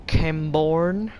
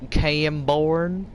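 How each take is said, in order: First: Slow, drawn-out American twang; American accent. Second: Said in the usual way. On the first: Pretend. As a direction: say it like a Western movie town. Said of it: "You sound American". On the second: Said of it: "Sounds very Western".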